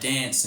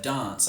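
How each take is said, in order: First: The vowel is short and front, like trap. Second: The vowel is long and open, like bath. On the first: This is how most Australians say it. "most Australians say dance instead of" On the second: This is the form most Australians avoid. "instead of dance"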